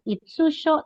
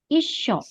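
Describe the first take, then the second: First: A full tsu syllable is said in the middle. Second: The s sound is held, with no tsu syllable. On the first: The speaker calls it wrong. "tidak dibaca itsusho" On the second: The speaker calls it right. "tapi isho. Mengikuti huruf di depannya"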